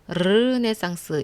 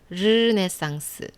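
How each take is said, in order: First: The first consonant is a rolled, trilled r. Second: The first consonant lightly brushes, with no trill. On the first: The speaker calls it wrong. "이렇게 부르르 떨지 말고" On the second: The speaker calls it right. "혀가 입 천장 안쪽을 살짝 스치듯이"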